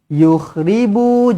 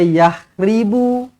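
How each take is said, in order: First: The first syllable has the vowel u. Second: The first syllable has the vowel a. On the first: The speaker calls it right. "ya baris depan" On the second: The speaker calls it wrong. "jangan baca yakhribu"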